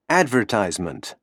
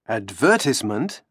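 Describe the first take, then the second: First: It is said with an American English accent. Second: It is said with a British English accent.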